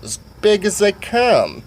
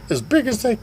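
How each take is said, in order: First: Put-on half-drunk character. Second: Retold high-pitched question; high character voice. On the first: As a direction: stretch it out in a raised voice. Voices General Sweet Pants. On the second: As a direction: pipe up in a put-on high voice. Voices Sugar Tits.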